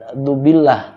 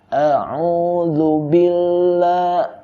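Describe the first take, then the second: First: The opening is clipped to a plain 'du'. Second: The opening 'a'udzu' is said in full. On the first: The speaker calls it wrong. "jangan dubillah" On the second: The speaker calls it right. "tapi a'udzu billah"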